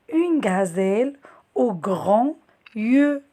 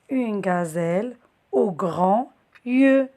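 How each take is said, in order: Both takes have the same delivery.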